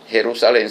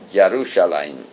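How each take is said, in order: First: The name is pronounced the Spanish way. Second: The name is pronounced the Hebrew way. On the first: This is the Spanish form of the name. "no es Jerusalén" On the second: This is the original Hebrew form of the name. "pero en hebreo ... sino Jerusalén"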